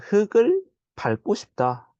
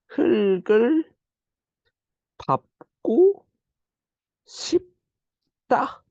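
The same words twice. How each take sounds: First: It uses the everyday, commonly heard pronunciation. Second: It uses the standard, carefully linked pronunciation. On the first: The speaker calls it wrong. "보통 친구들은 흙을 밟고 싶다. 이렇게 발음하겠지만" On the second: The speaker calls it right. "이렇게 발음해야 이게 맞는 발음이란 거"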